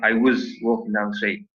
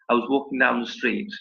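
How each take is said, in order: First: The word 'was' is said fully and stressed. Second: The word 'was' is weak and nearly disappears. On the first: The speaker calls it wrong. "I'm not going to say something like" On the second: The speaker calls it right. "the was kind of disappeared"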